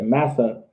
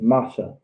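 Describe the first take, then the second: First: The middle consonant is a plain s sound. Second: The middle consonant is an sh sound. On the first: The speaker calls it wrong. "we say massa. All right, because of the English pronunciation" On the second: The speaker calls it right. "but it's masha"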